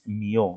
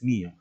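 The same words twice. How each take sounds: First: The stress falls on the second syllable. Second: The stress falls on the first syllable. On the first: The speaker calls it wrong. "Tú no dices mío" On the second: The speaker calls it right. "dices mío"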